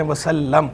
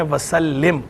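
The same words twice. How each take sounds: First: वसल्लम ending in "-lam"; short "a" in the last syllable of वसल्लम; wasallam reading. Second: वसल्लिम ending in "-lim"; short "i" in the last syllable of वसल्लिम; wasallim reading. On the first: Scholar restating the question, वसल्लम with "-lam". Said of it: "बाज़ पढ़ते हैं वसल्लम". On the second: Scholar restating the question, वसल्लिम with "-lim". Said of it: "बाज़ लोग". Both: Shown as a demonstration.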